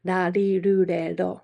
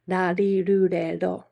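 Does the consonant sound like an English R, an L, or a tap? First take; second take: tap; tap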